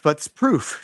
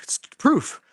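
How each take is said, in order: First: Said in the usual way. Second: "proof" repeated much higher; emphatic repeat. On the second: Real, not acted. Coach insisting to viewers the workout is proof, high emphatic "proof". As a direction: punch "proof" up high the second time.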